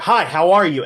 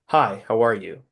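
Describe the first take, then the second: First: It is said at the loudest level. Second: It is said at the quietest level.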